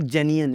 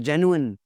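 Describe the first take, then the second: First: Genuine said as jeni-un, with an e sound; the wrong way: jeni-un. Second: Genuine said jen-yoo-un, with a clear oo; the right way: jen-yoo-un; correct genuine. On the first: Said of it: "It's not genuine". (genuine का ग़लत उच्चारण "जेनियन") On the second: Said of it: "it's a genuine". (genuine सही उच्चारण "जेन्यूअन") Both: Shown as a demonstration.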